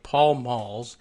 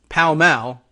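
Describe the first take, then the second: First: It is said with an American pronunciation. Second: It is said with an English pronunciation. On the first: "what we would say as like Pall Malls" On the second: "in England is pronounced something closer to Pall Mall"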